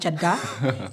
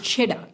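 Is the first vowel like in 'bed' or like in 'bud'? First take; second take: bud; bed. First: The first vowel sounds like the one in 'bud'. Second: The first vowel sounds like the one in 'bed'. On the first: The speaker calls it wrong. "It's not chadda" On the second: The speaker calls it right. "It's cheddar"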